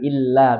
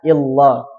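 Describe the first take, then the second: First: The L is said thin and light. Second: The L is said thick and heavy. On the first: The speaker calls it right. "ini enggak ditebalkan, illa biasa" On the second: The speaker calls it wrong. "tidak illah"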